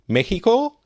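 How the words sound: It is said with a Mexican Spanish accent.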